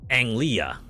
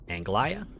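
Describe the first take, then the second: First: The G sound is left silent. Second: The G sound is pronounced. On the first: The speaker calls it right. "it's a silent. Oh, like Anglia, right? That's how you pronounce that" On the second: The speaker calls it wrong. "Am I pronouncing that right?"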